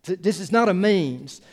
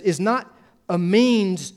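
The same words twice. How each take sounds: First: Said in the usual way. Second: Is not a means, every word drawn out and weighted, means louder; slow stress on means. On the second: Shown as a demonstration. Pastor insisting to the congregation that servanthood is not a means, slow and weighty. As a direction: land is not a means slowly and firmly. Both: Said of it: "It's the end".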